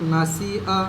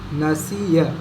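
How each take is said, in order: First: No 'y' glide comes before the final 'a'. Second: A clear 'y' glide comes before the final 'a'. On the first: The speaker calls it wrong. "बाज़ लोग नसिआ इस तरह पढ़ते हैं, यह गलत है" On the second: The speaker calls it right. "या ज़बर या नसिया"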